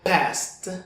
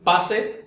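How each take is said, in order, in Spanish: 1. La terminación es un simple sonido de t. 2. La terminación se pronuncia como una sílaba extra 'ed'. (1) "su sonido al final es el de una T" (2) "yo quisiera pronunciar aquí passed"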